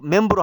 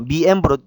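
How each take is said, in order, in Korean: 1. 앞부분이 한 음절 'mem'으로 줄어듭니다. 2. 앞부분이 두 음절 'mi-em'으로 나뉩니다. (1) "멤브로 하지 마시고" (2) "두 음절로 나눈다 생각하세요"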